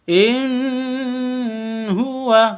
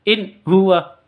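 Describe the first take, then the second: First: The n is nasalized and drawn out. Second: The n is cut off abruptly. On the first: "tidak boleh didengungkan. In huwa, tidak boleh seperti itu" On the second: "tidak boleh disentak. In huwa, tidak boleh seperti itu"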